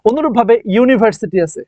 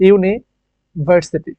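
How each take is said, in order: First: Said in the usual way. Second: ইউনিভার্সিটি drawn out slowly, a firm yu at the start; slow demo pronunciation. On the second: Shown as a demonstration. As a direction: sound out ইউনিভার্সিটি syllable by syllable. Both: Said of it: "ইউ এর মতো soft sound কিন্তু নাই".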